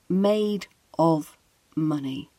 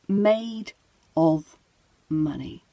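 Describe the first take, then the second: First: Each word is said separately, with a full 'of'. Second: Each word is said separately, with a full 'of'.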